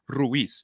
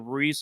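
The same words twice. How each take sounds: First: It is said the Spanish way, with flair. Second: It is said the English way, like Reese.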